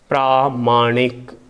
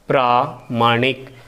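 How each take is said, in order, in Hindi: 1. पहला स्वर लंबा है। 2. पहला स्वर लंबा है।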